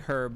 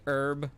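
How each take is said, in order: First: The word starts with a heard h. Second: The word starts with a silent h. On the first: This is how British people say it. "British people say herb" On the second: This is how Americans say it. "Americans say herb with a silent H"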